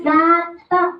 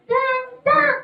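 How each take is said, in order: First: Said in the usual way. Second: High-pitched puppet repeat; puppet character. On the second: Acted. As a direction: parrot it back high.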